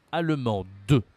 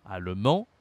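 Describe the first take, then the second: First: ALLEMANDE with sounded d and released "-de"; louder "allemande", ending "man-deu"; pronounced final E. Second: ALLEMAND ending on nasal "an", silent d; masculine pronunciation. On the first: Teacher stressing the final E, feminine pronunciation. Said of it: "il faut prononcer le E à la fin". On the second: Teacher contrasting genders for a learner, masculine pronunciation. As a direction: lower start, rising "allemand", no d. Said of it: "La prononciation est différente". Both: Shown as a demonstration.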